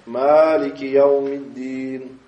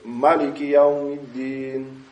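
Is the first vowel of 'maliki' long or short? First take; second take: long; short. First: The first vowel is lengthened to two beats. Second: The first vowel is short, not lengthened. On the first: "То есть два хараката тянется. ... Тянется" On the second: "разрешается, что без того, чтобы мат делать"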